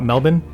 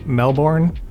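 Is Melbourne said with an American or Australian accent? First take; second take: Australian; American. First: It is said in an Australian accent. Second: It is said in an American accent.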